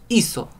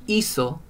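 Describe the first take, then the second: Both takes have the same delivery.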